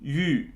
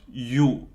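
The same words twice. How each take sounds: First: Yu with oo lips and ee tongue; front, rounded vowel held in Yu; umlaut U. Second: Yu said like English "you"; wrong plain U. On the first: Teacher showing the way it is pronounced, fronted Yu. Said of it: "this is the way that it's pronounced". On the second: Teacher showing how it's not pronounced, plain English yu. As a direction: back oo vowel in yu, no umlaut. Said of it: "it's not pronounced yu". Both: Shown as a demonstration.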